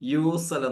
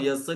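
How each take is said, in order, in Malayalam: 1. ആദ്യ സ്വരം ദീർഘമായാണ് പറയുന്നത്: yoosal. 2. ആദ്യ സ്വരം ചെറുതായാണ് പറയുന്നത്: yasil. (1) "ഇവിടെ സ്പോക്കണിൽ എന്താണ്? യൂസൽ എന്നാവും" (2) "യസ്ൽ എന്നായിരിക്കും കിതാബ് ബുക്ക് ലാംഗ്വേജ് പഠിച്ചവരെ പറയാ"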